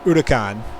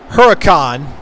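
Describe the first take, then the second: First: The word begins with no H sound. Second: The word begins with a clear H sound. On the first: The speaker calls it right. "It's supposed to be a soft H, Udacan, or a silent H" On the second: The speaker calls it wrong. "I could say Huracan"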